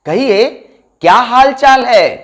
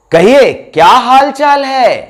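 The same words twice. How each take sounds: The two takes are said the same way.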